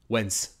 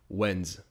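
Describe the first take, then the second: First: The word ends with a hissing S sound. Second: The word ends with a buzzing Z sound. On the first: The speaker calls it wrong. "If you say it with an S, it'll kind of have a weird, like, cut, like, not quite natural sound" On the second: The speaker calls it right. "it'll actually make a Z noise, not an S noise"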